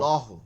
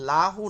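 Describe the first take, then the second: First: The L is heavy, with a darker rounded vowel. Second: The L is light, with a clear open a. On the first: The speaker calls it right. "জবর পেশ থাকলে মোটা" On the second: The speaker calls it wrong. "কুলহু অল লাহু নাকি"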